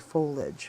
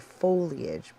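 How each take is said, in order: First: The middle 'i' sound is glossed over. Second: The middle 'i' sound is clearly pronounced. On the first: "They kind of gloss over the I. They say foliage" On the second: "I emphasize the I in foliage. I say foliage"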